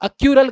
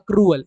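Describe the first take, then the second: First: The r sound comes after the 'yoo' sound. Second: The r sound comes before the 'oo' sound. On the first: The speaker calls it wrong. "बहुत सारे बच्चे इसको अक्रूअल की जगह अक्यूरल कर देते हैं" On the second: The speaker calls it right. "जो कि है क्या, ये अक्रूअल"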